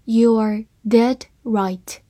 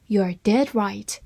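First: Slow, careful read of each word. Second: Said in the usual way. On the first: Shown as a demonstration. Teacher reading slowly to learners, slow and careful. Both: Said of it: "好，慢慢来读".

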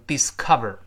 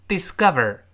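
First: DISCOVER with a puffed k in the middle; c left aspirated. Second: DISCOVER with the c as a hard g; k voiced to g. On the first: Teacher warning learners off it, "discover" with an aspirated k. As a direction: say "discover" with a full voiceless k. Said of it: "而不能读成discover". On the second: Teacher modelling the word for learners, "discover" with c turned to g. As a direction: say "discover" like "disgover", stressed middle. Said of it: "清辅音就会浊化成浊辅音". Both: Shown as a demonstration.

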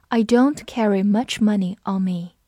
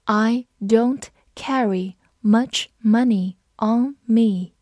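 First: Said in the usual way. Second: Slow, careful reading of the sentence. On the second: Shown as a demonstration. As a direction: read each word slowly. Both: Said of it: "我们慢读一遍".

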